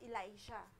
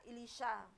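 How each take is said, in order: First: The name is said with an American pronunciation. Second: The name is said with a Hebrew pronunciation. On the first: "yung sa America naman is" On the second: "sa Hebrew word daw is yun nga"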